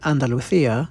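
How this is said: It is said in a Spain Spanish accent. "in Spain. I always feel really awkward when I try to do the actual Spanish accent"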